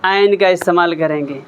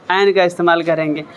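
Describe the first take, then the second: No difference in how they are said.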